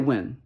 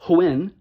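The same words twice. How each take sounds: First: There is no h sound before the w. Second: The h sound before the w is breathy. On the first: "He's not going to say when because it's not how he says it" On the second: "he's going to say it like that"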